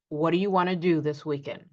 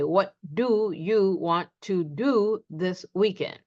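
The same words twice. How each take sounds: First: The first do is quick and reduced. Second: The first do is fully pronounced. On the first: The speaker calls it right. "We reduce it and simply say" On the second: The speaker calls it wrong. "we're not emphasizing the do. We don't say"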